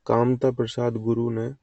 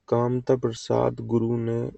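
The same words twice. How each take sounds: The two takes are said the same way.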